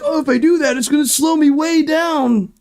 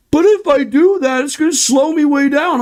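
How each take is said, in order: First: Crybaby mock whine. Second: Higher, whiny put-on voice mocking the excuse. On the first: Streamer mocks racers' excuse as fake sobbing. Mocking drivers' excuse again. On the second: Streamer mocks other racers' excuse in a whiny voice. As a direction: pout it out like a spoiled driver.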